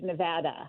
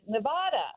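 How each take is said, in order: First: The middle vowel is a front 'a' sound. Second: The middle vowel is an open 'ah' sound. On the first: This is how locals say the name. "The proper way, according to Nevadans" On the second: This follows the original Spanish word. "because in Spanish, Nevada, which is the origin of the word, is"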